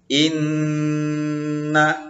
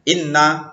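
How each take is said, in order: First: The double n is held with a nasal hum. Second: The double n is short and quick. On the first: The speaker calls it right. "dibaca dengung" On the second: The speaker calls it wrong. "tak boleh"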